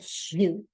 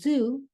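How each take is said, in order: First: The Z is a slushy sound from the tongue's sides. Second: The Z is a clear buzz. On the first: The speaker calls it wrong. "you'd hear shoo, shoo" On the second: The speaker calls it right. "for the word zoo"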